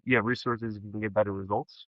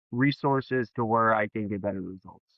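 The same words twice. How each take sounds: First: Quiet echo, lifting at the end of "results"; low start, questioning rise on "results"; mirroring question. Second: Plain statement, settling down on "results"; matter-of-fact, no lift on "results"; customer's statement. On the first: Shown as a demonstration. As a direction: repeat it back softly, turning "results" up into a question. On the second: Acted. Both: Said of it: "let's give you some more".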